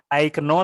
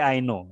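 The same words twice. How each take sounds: First: The k at the start of know is sounded. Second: The k at the start of know is silent. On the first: The speaker calls it wrong. "bukan I know" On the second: The speaker calls it right. "tapi I know"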